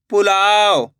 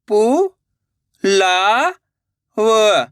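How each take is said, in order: First: Said in the usual way. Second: पु, ला, व as isolated sounds; syllable by syllable. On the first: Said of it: "direct मात्रा का उच्चारण करके पढ़ेंगे". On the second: Shown as a demonstration. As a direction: sound out पु, ला, व with pauses. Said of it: "एक एक अक्षर का उच्चारण करके". (पु, ला, व एक-एक अक्षर रुक-रुक कर)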